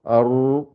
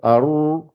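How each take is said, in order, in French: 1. Le r est lourd et résonnant, bouche creusée. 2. Le r est lourd et résonnant, bouche creusée.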